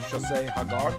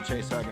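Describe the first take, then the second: First: The name is said with a fancy foreign accent. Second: The name is said in plain English.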